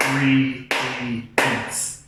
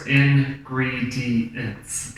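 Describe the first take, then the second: First: Slow, syllable-split ingredients; clapping syllables. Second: Slow, syllable by syllable; ingredients, each syllable slow and separate; clapped out syllables. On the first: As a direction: sound out In-gre-di-ents slowly. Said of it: "how many claps do I get". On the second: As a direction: break ingredients into claps. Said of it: "we're gonna clap that out". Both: Shown as a demonstration.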